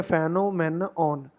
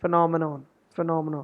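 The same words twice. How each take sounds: First: Phenomenon broken up as FAN-o-men-ON; slow, full vowels in phenomenon; common mispronunciation. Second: Phenomenon as fuh-NOM-uh-non; quick reduced first syllable in phenomenon, falling end; correct pronunciation. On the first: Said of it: "कुछ बोलते हैं phenomenon". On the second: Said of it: "नहीं बोलना इसको". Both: Shown as a demonstration.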